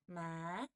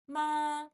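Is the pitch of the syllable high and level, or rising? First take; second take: rising; high level. First: The pitch rises from low to high. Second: The pitch stays high and level. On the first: "the second tone is called the rising tone" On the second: "we do very, very high, okay? As high as you can go"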